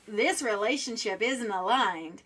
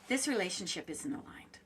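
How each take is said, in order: First: It is said in a harsh tone. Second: It is said in a gentle tone.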